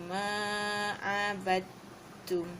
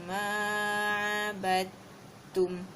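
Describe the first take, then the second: No difference in how they are said.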